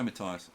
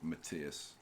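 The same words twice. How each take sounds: First: The name is pronounced the English way. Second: The name is pronounced the German way. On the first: "I always say Matthias" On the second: "the German way of saying it would be Matthias"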